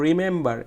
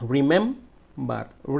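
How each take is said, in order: First: Said in the usual way. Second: remember very slowly, "mem" drawn out; stressed middle syllable. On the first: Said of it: "এই মাঝের অংশটুকুটো". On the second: Shown as a demonstration. Teacher showing students the stress, long "mem" in remember. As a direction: stretch "mem" and pause before the end of remember. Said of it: "জোরে বলতে হয়েছে".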